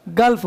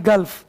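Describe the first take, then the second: First: गल्फ with short a sound, gəlf; गल्फ said correctly; correct pronunciation. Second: गल्फ said with short a as in gulp, not गुल्फ; गल्फ pronounced gəlf; correct pronunciation. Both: Shown as a demonstration. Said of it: "गल्फ, गुल्फ नहीं".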